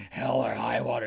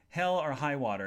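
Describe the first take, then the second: First: Put-on disapproving voice; mock religious man. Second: Said in the usual way. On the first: Religious man objecting to a film title, mock disapproval. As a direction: imitate a pious objector saying the title. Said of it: "if he was a religious person".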